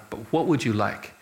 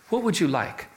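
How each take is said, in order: First: Would leaned on, asking again; stress on would. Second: Said in the usual way. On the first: Shown as a demonstration. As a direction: press the word would, falling. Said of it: "Oh, I'll take anything".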